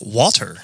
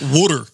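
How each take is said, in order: First: Water is said with a standard American pronunciation. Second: Water is said with a South Jersey pronunciation. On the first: The speaker calls it right. "You actually said it right too" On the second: The speaker calls it wrong. "not water"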